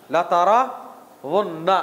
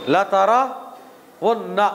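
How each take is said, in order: First: लतरउन्ना drawn out very slowly with the pitch rising at the end; slow word demo, rising. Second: लतरउन्ना spelled out very slowly, every syllable held, ending flat; slow word demo. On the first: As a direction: stretch लतरउन्ना slowly and lift it like a question. (लतरउन्ना को बहुत धीरे, अंत में आवाज़ ऊपर उठाते हुए) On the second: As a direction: drag out लतरउन्ना syllable by syllable, falling to a close. (लतरउन्ना को बहुत धीरे, हर अक्षर खींचकर, सपाट अंत के साथ) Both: Shown as a demonstration. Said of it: "अरबी ग्रामर में".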